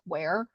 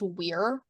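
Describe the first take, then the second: First: The name rhymes with 'hair'. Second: The name rhymes with 'here'. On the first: Only this family and one other person say it this way. "to pronounce W E I R like Ware" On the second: This is the usual way to say it. "That's usually pronounced Weir"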